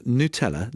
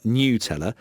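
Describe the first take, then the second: First: Nutella said as noo-TELL-a; plain oo at the start of Nutella; Italian pronunciation. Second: Nutella said as nyoo-TELL-a; rejected pronunciation. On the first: Reading out the Italian listener's ruling, noo-TELL-a for Nutella. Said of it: "it should be pronounced". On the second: Reading out the listener's wrong version, nyoo-TELL-a for Nutella. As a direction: put a y-glide in Nutella, like "new". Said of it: "not Nutella". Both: Retold or imitated.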